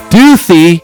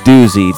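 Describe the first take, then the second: First: The middle consonant is a th sound. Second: The middle consonant is a buzzing z sound.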